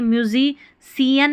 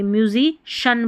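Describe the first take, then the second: First: म्यूजिशियन wrongly said "myu-zi-si-yan", with an s sound; wrong pronunciation. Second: म्यूजिशियन said "myu-zi-shan", with a sh sound; correct pronunciation. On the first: Teacher shows learners what not to say, mispronounced "myu-zi-si-yan". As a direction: say म्यूजिशियन letter by letter, ending "si-yan". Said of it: "नहीं बोलेंगे". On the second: Teacher corrects the word for learners, pronounced "myu-zi-shan". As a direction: end म्यूजिशियन on a clear "shan". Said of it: "म्यूजिशियन बोलेंगे". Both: Shown as a demonstration.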